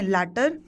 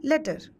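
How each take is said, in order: First: लैटर with an open "a" as in "cat"; open-vowel pronunciation. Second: लेटर with a short "e", as in English "letter"; short pronunciation. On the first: Teacher contrasting similar words for students, लैटर said as "latter". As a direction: say लैटर as "LAT-ter", clearly. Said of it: "pronunciation clear कर दूं". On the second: Teacher contrasting similar words for students, लेटर said short as "letter". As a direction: say लेटर quickly as "LET-ter". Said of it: "छोटा pronunciation है इसका". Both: Shown as a demonstration.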